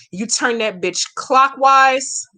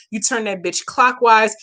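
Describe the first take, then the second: First: Slow, deliberate step-by-step; slow instruction. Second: Said in the usual way. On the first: Shown as a demonstration. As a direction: spell it out slowly for the viewer. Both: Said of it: "let me say it again slowly".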